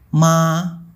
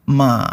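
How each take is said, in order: First: The pitch stays high and level. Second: The pitch dips down then rises again. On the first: "Ton 1 bunyinya datar seperti ma" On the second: "Ton 3 bunyinya diayun, turun ke bawah lalu naik lagi"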